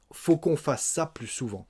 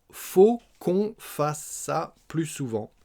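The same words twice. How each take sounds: First: Said in the usual way. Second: Slow, higher, word by word; slow model repetition. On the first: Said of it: "Mais ça donne". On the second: Shown as a demonstration. Teacher repeating Eric's answer for learners, slow and separated. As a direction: draw out "faut qu'on fasse ça" syllable by syllable.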